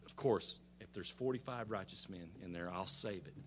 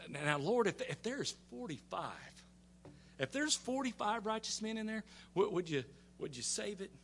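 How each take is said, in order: First: Low, soft, easy agreement; patient Lord answering. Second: Higher, softer, careful plea; Abraham bargaining. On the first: The Lord agreeing to spare the city, low and patient. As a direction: grant it quietly, pitched low. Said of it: "And he says". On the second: Abraham slyly bargaining the Lord down, soft and tentative. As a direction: ease the request in high and soft. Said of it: "he's pretty smart. He goes". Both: Retold or imitated.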